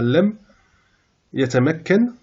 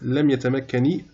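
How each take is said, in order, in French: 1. Le verbe se termine par un n final nu. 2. Le verbe se termine par une voyelle i ajoutée. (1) "normalement avec sukun" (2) "quand on a alif ou lam, pour des raisons de prononciation"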